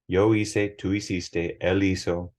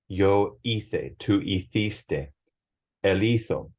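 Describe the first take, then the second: First: The c and z sound like English s. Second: The c and z sound like English th.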